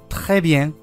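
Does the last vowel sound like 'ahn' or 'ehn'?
ehn. The last vowel sounds like 'ehn'.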